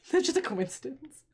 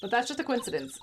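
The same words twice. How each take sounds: First: Repeating it through a laugh. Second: Said in the usual way. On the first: Real, not acted. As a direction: say it while laughing.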